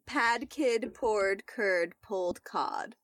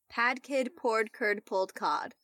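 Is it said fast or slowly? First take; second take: slowly; fast. First: It is said at a slower pace. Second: It is said at a faster pace.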